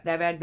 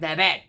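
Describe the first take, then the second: First: Said in the usual way. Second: Louder incredulous repeat; louder disbelief. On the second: Retold or imitated. Coworker repeating his question louder in disbelief. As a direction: push the second one harder in disbelief. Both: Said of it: "He's like".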